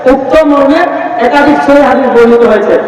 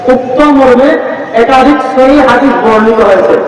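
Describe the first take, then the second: The two takes are said the same way.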